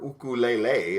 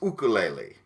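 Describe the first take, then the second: First: The word is drawn out and lengthened. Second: The word is said at normal length. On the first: "if you really want to stretch it out" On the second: "the actual Hawaiian pronunciation"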